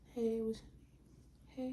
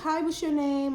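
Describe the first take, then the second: First: It is said very quietly. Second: It is said louder.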